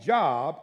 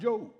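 First: The name rhymes with rob. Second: The name rhymes with robe. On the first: The speaker calls it wrong. "I can tell when folks don't know too much about me" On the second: The speaker calls it right. "and not Job"

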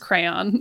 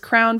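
First: The word sounds like 'crayon'. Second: The word sounds like 'crown'. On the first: "versus crayon" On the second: "someone says crown"

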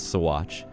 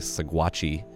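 First: The name ends without an added vowel sound. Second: The name ends with an added vowel sound. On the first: The speaker calls it right. "The proper pronunciation is Sawatch" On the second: The speaker calls it wrong. "I really, really want to say Sawatchi, I won't"

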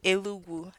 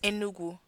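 First: It is said with an l sound, Imo accent. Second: It is said with an n sound, standard.

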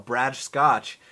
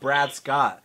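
First: The name is said with a Brazilian accent. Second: The name is said without a Brazilian accent.

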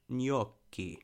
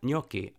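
First: The double C sound is held long. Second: The double C sound is short. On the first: "if you're really being like Italian about it, the double C in gnocchi is like, it's sort of like" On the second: "But yeah"

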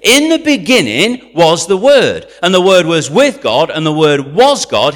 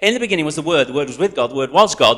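First: It is read at a normal speed. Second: It is rattled off very fast.

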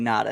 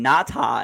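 First: The name is said casually without strong enunciation. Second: The name is said with strong, careful enunciation. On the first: This is how fans said the name. "We all called him Haloti Ngata" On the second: This is how the announcers said the name. "the announcers would call him Ngata, ... why are you enunciating it so hard?"

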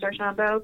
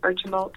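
First: The name is pronounced the French way. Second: The name is pronounced the English way. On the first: This is the original form of the name. "French pronunciation is Archambault" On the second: This is the simpler form most people use. "a lot of people say Archambault because it's a lot easier to understand"

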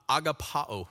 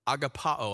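The two takes are said the same way.

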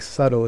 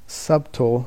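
First: The b sound is silent in the middle. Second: The b sound is pronounced in the middle. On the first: The speaker calls it right. "subtle is the way you pronounce it" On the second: The speaker calls it wrong. "Subtle is the way it kind of reads"

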